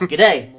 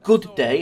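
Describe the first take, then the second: First: The first word is shortened to a g sound. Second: The first word is said in full as good. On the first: The speaker calls it right. "It's g'day" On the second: The speaker calls it wrong. "It's not good day"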